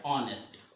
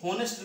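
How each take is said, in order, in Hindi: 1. यह शब्द स्वर ध्वनि से शुरू होता है। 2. यह शब्द h ध्वनि से शुरू होता है। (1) "लिखा जरूर एच है लेकिन इसका उच्चारण क्या है ऑनेस्ट" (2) "ये होनेस्ट नहीं"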